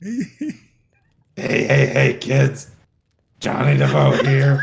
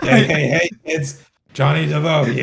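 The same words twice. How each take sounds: First: Phlegmy gurgling voice, louder; throat gurgle. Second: Loud phlegmy gurgle; throat gurgle. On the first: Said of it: "Now you're just putting extra on it". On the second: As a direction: push the gurgle for laughs. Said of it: "you're emphasizing your, like, uh, your phlegmy voice". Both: Retold or imitated.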